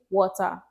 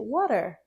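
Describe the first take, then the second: First: It is said with a Nigerian accent. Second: It is said with an American accent. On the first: "in Nigeria, we say water" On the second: "In America, you say water"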